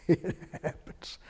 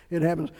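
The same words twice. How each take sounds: First: Breathy laugh through the words. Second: Said in the usual way. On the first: Real, not acted. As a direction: let it come out mid-chuckle. Preacher laughing at sleeping congregants.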